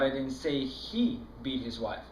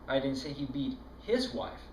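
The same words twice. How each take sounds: First: The word 'he' carries the main stress. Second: The word 'his' carries the main stress. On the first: Someone else did the beating. "No, I was that other guy that was beating his wife" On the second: It was another man's wife. "No, it was that other guy's wife that he was beating"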